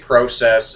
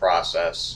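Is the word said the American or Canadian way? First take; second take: Canadian; American. First: The word is said the Canadian way. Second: The word is said the American way. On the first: "you do say process" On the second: "instead of process"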